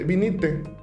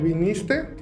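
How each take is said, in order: First: The s sound before the t is dropped. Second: The s sound before the t is kept. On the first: "dice vinite, ¿por qué le quitan la S?" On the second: "en el viniste"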